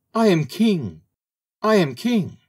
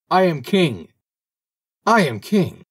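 First: Very high, small bird's cry. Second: High, loud, penetrating proclamation; clear penetrating call. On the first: Little bird crying out of a mouse hole, small high voice. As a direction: pipe it up in a tiny, high voice. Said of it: "with his small voice". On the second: Little bird calling down from heaven, clear penetrating cry. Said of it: "called down with a clear and penetrating voice". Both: A narrator's reading.

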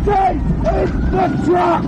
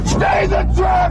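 First: Drawn-out, insistent shout, stressing stay; slow shouted order. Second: Urgent shout with a hard breathy edge; shouted order. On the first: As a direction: hold them there with a slow firm yell. Ambush, repeating the order. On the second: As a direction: bark the order over the chaos. Ambush, ordering people to stay. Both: Acted.

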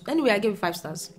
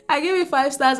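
First: Said in the usual way. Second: Laughing it out, pitched up. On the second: Real, not acted. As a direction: giggle through the repeated rating. Repeats rating laughing.

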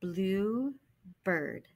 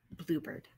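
First: Blue and bird said as two separate parts; sounding parts. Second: Bluebird said as one smooth word; blended word. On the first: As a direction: say each part on its own. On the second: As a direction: run the parts together. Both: Shown as a demonstration. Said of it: "Put it together".

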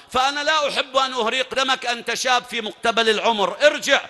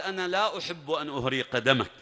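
First: Higher and louder, building to a shouted order; arrogant warning. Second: Said in the usual way. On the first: Acted. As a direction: swell into a contemptuous command to go back. (تحذير متعال يتصاعد إلى صراخ) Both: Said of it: "عمرو هنا قال".

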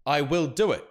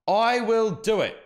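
First: Said in the usual way. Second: Slow, louder, higher threatening repeat; mock menacing threat. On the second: Streamer reading out a rival's threat, mock menacing. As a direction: press on the word I as a menacing warning. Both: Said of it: "And he says".

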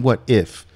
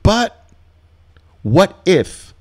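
First: Said in the usual way. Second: Much higher and louder whiny worry; mock worrier. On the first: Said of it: "What do you mean". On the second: Nervous trader doubting the setup, high whiny mock worry. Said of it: "that's the two words that tells me".

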